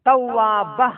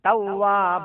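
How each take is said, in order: First: The final vowel is cut off abruptly. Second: The final vowel is drawn out and eased off. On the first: The speaker calls it wrong. "Sudden brake ഇട്ട് കഴിഞ്ഞാൽ" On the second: The speaker calls it right. "ഒരു ഉൾവലിവോട് കൂടിയായിരിക്കണം വഖഫ് ചെയ്യേണ്ടത്"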